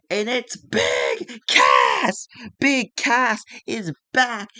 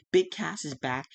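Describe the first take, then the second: First: Loud drawn-out shout of the big reveal; slow excited ringside roar; hyped announcer shout. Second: Said in the usual way. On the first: Acted. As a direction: yell it like the crowd just popped. Surprise return reveal.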